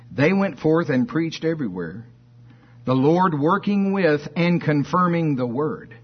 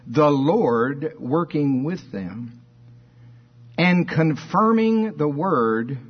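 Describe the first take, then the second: First: High, forceful reading driving through to "confirming the word"; emphasis on the word. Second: Slow, emphatic reading of "the Lord working with them"; King James reading. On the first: Preacher rereading the verse as the Greek has it, weight on "confirming the word". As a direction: run "working with" straight on and lean into "the word". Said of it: "The emphasis is on the word. So let's read it that way".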